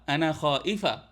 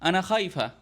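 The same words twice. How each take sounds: First: It is said carefully with a catch in the middle. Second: It is said fast with a y glide in the middle. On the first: "बजाय ये कहने के" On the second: "वो कहती हैं"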